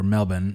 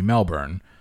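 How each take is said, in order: First: The city name is said with Australian pronunciation. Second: The city name is said with American pronunciation.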